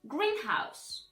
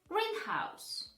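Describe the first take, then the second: First: The stress falls on the first part only. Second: The stress falls on the first part only.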